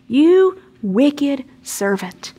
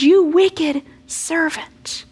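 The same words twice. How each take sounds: First: Stern rebuke. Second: Slow, much higher rebuke rising at the end; the master, angry and grieved, rebukes his servant; grieved anger. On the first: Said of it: "That's pretty strong language". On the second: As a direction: drag out each word in angry grief. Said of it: "He's angry. He says". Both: Acted.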